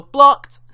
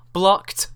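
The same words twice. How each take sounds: First: "Blocked" yelled high and loud, mocking. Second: Said in the usual way. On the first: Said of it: "They always have to go". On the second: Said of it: "says Robert".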